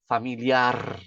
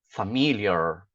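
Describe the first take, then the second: First: The final r is a vibrating trill. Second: The final r has a curled tongue. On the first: "Essa é a dica para pronunciar em espanhol" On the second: "A língua ele fica encolhida no meio... Então o que que eu falo?"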